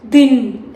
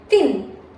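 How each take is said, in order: First: The th sound is voiced from the throat. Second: The th sound is voiceless from the mouth. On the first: The speaker calls it wrong. "it's not thin, it's not coming from the throat" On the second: The speaker calls it right. "it's coming from the mouth"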